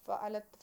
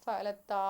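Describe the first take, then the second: First: Said in the usual way. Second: ഫഅലത്താ with a drawn-out "taa" at the end; ഫഅലത്താ ending on a long, open "aa"; long final alif. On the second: Shown as a demonstration. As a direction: hold the last vowel of ഫഅലത്താ long. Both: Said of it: "അവിടെ അലിഫുണ്ട്".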